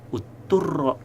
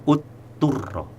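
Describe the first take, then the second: Both takes have the same delivery.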